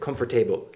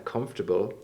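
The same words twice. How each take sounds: First: Every syllable is pronounced fully and clearly. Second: The middle syllable is reduced to a schwa. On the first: The speaker calls it wrong. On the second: The speaker calls it right.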